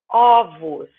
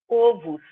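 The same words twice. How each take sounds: First: The first vowel is an open O. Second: The first vowel is a closed O. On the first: The speaker calls it right. "de um som fechado do primeiro O, eu vou fazer um som aberto" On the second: The speaker calls it wrong. "eu não vou falar ovos"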